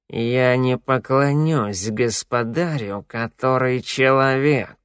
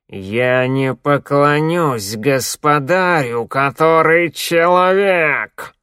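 First: The line is said more quietly and evenly. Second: The line is said louder and more confidently. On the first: "четко проговорил" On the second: "повторил громче и уверенней"

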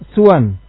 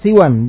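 First: The s is followed by a short u. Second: The s is followed by a short i. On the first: "suwan bi dhammi sin wal qasr" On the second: "siwan, bi kasri sin wal qasr"

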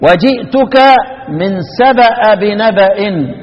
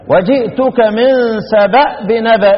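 First: The hamza of Saba is voweled with a. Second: The hamza of Saba is silent, unvoweled. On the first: "يقرآن بفتح الهمزة" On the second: "سكن الهمزة ... كأنك هتقف عليه"

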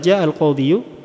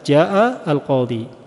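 First: The word qadhi ends with an extra -yu syllable. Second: The word qadhi ends without any extra syllable. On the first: The speaker calls it wrong. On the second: The speaker calls it right.

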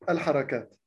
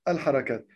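No difference in how they are said.

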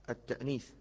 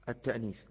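No difference in how they are said.

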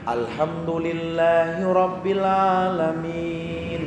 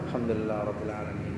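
First: The phrase is recited aloud at full voice. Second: The phrase is recited softly and quickly. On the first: This is recitation read aloud. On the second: This is silent recitation, which goes faster.

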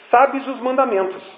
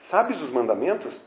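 First: It is said as a statement, falling at the end. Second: It is said as a question, rising at the end. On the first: It asserts that the listener knows the commandments. The speaker calls it right. "Jesus fez uma afirmação" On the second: It asks whether the listener knows the commandments. The speaker calls it wrong. "Jesus não perguntou para ele"

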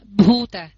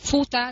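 First: It begins with a voiced breathy b sound. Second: It begins with a voiceless breathy p sound. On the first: The speaker calls it right. "Bhuta thì mình phải đọc Bhuta mới đúng" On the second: The speaker calls it wrong. "mình đọc Phuta thì nó ra chữ pơ và chữ hơi"

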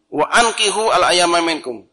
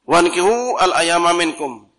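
First: Ankihu starts with a separate glottal stop. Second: Wa runs straight into ankihu, no stop. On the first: Others are told to give the unmarried in marriage. The speaker calls it right. "Yang benar maka harus dibaca qata" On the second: The listeners are told to marry them themselves. The speaker calls it wrong. "kalau dibaca wasul kan hukumnya jadi rubah"

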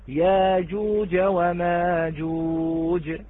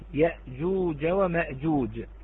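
First: A long vowel replaces the glottal stop. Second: A glottal stop is heard after the first vowel. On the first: "فقرأها ورش" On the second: "كذلك أبدل من الساكن، من الساكن كلمة يأجوج ومأجوج"

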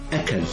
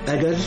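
First: The middle consonant is a k sound. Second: The middle consonant is a j sound. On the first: The speaker calls it wrong. "هكذا ينطقها أو تنطقها" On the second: The speaker calls it right. "أجد من يقول أجل"

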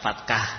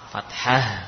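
First: The middle consonant sounds like a hard k. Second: The middle consonant is a soft breathy h. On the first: The speaker calls it wrong. "bukan fatkah" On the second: The speaker calls it right.

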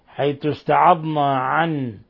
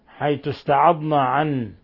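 Both takes have the same delivery.

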